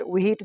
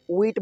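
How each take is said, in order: First: "व्हीट" split as wi-heet; H sounded. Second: "व्हीट" as one syllable, weet; silent H. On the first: Teacher showing the wrong reading, h sounded. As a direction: add an audible h inside "व्हीट". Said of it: "जैसा नहीं बोलेंगे". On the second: Teacher giving the right reading, silent h. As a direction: slide from w into ee in "व्हीट". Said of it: "व्हीट बोलेंगे". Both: Shown as a demonstration.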